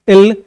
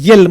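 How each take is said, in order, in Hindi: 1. यह सीधे स्वर से शुरू होता है, जैसे el। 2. यह y ध्वनि से शुरू होता है, जैसे yel। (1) "यल यम नहीं होता है" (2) "कुछ बच्चे यल बोलते हैं"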